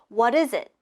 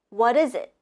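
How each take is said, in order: Both takes have the same delivery.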